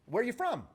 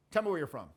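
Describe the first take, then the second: First: Lilting question, rising to win approval; seeking rapport. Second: Falling, self-assured command with a little sass; cocky command. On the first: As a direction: let it lilt up, seeking rapport. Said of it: "listen even how the tonality changes". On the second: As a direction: say it like you already own the room. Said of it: "That's got that sort of cocky". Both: Shown as a demonstration.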